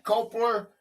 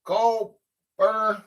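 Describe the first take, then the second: First: "Copler" said as KOH-pler, with an L after the P; "Copler" with the L clearly sounded; trying Copler. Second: "Copper" said as KOP-er, no L at all; testing "Copper" as a plain KOP-er; "Copper" with the L dropped; trying Copper. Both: Shown as a demonstration. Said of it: "Is that how you say that?".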